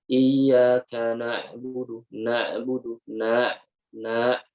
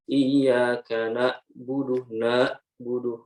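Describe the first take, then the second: First: "na'budu" with a clear throat ain, slow; correct clear ain. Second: "na'budu" with the ain blurred toward alif, slow; wrong unclear ain. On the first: Teacher demonstrating the right reading, clear ain. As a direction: articulate the ain in "na'budu" carefully. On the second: Teacher demonstrating the wrong reading, ain swallowed. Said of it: "Nah, itu salah". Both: Shown as a demonstration.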